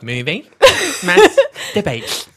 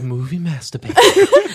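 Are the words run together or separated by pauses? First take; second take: separated; run together. First: Each part is separated by a clear pause. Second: The words run together without any pauses. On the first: It is a debate about movies. "And now you're like" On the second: It sounds like a rude word. "the first time I was like"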